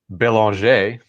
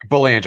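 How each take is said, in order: First: The name is said with a French pronunciation. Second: The name is said in a plain English way. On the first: This is the original French form. "if we want to be all all French" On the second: This is how the family itself says it. "That's how that's how we pronounce it"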